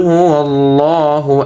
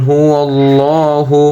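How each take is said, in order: No difference in how they are said.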